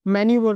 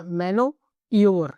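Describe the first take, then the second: First: Said in the usual way. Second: मैनो ईवर split in two, slowly, as spelt; teacher splitting the word to teach its spelling; spelling pronunciation. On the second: Shown as a demonstration. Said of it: "ऐसे करके याद रखना".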